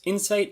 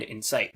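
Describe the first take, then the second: First: "insight" stressed on IN; stress on first syllable. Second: "incite" stressed on CITE; stress on second syllable. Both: Shown as a demonstration. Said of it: "stress is the difference between".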